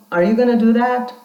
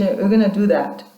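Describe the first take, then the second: First: "Are you gonna do that?" climbing on THAT; a real question, "that" turned upward; rising intonation. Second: "You're gonna do that." dropping on THAT; falling intonation. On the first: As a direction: lift the pitch at the end on "that". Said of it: "rising intonation". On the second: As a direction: let the pitch fall at the end on "that". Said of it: "falling intonation". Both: Shown as a demonstration.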